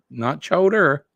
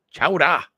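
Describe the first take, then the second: First: Chowder said the standard way with an R ending; "chowder" as chow-der, R sounded; wrong pronunciation. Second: "chowder" said chow-da, no R at the end; "chowder" with a New England chow-da ending; Boston pronunciation. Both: Shown as a demonstration. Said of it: "D A at the end, right?".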